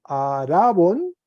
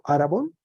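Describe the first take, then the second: First: Arabón said slowly with the accent landing on bón; slow teaching read of arabón, stressing bón; stress on second syllable. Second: Said in the usual way. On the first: Shown as a demonstration. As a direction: drag out arabón and lean on its final bón. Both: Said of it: "se cambió el acento en la segunda sílaba".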